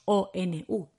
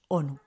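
First: Each letter is named separately, one by one. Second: The letters blend together into a single word. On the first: The speaker calls it wrong. "No decimos ONU" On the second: The speaker calls it right. "lo decimos como una palabra"

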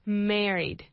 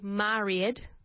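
First: The first syllable sounds like the name Mary. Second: The first syllable does not sound like Mary. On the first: The speaker calls it right. "like the name Mary... Just put a D at the end of her name" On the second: The speaker calls it wrong. "we don't say married, okay, as most people say"

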